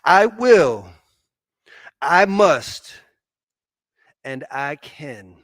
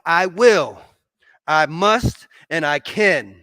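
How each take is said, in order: First: It is said in a plain, calm way. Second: It is said with strong, forceful conviction. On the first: "say it with me one more time" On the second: "say it like you mean it now"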